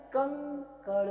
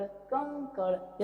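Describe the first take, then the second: First: Said in the usual way. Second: कंकड़ drawn out very slowly, the ं hummed through the nose; slowed nasal demo. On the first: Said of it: "ऐसे ही". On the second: Shown as a demonstration. Teacher slowing कंकड़ for students to hear the nasal. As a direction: stretch कंकड़ and let the nasal ring. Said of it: "sound कहाँ से निकलेगा".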